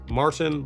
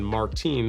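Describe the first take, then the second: First: It is said with a long vowel, Dutch style. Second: It is said ending in an 'een' sound, French style. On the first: It names the Dutch side of the island. "long, is for the Dutch" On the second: It names the French side of the island. "like they say, is the French side"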